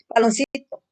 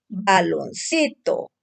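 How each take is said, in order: First: Said in the usual way. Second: Baloncito read slowly as one whole word. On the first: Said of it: "Ahora, tu dedo". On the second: Shown as a demonstration. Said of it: "Porque así se lee, no por partes".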